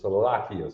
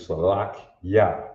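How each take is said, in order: First: An 'ee' sound comes before the final 'ya'. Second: The final 'ya' follows directly, with no 'ee'. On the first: This is the everyday way people say it. The speaker calls it wrong. "what you will hear in Israel is salakia" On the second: This is the word's proper form. The speaker calls it right. "The word is actually salak ya, not salaki. There's no E sound"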